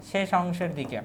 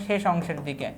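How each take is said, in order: Both takes have the same delivery.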